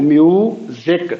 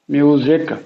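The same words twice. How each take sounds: First: music slowly split as mu, then ज़िक; syllable by syllable. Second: Said in the usual way. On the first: Shown as a demonstration. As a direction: break music into two drawn-out syllables. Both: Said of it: "syllables कितने हैं".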